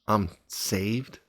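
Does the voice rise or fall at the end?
rise. The voice rises at the end, like a question. The speaker is unsure of being saved. The speaker calls it wrong. "with a question mark"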